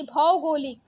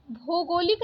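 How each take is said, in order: First: Said in the usual way. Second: भौगोलिक said "bho-golik", closed o; wrong vowel. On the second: Shown as a demonstration. Teacher rejecting a spelling, भौगोलिक with plain o. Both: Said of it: "भौगोलिक नहीं".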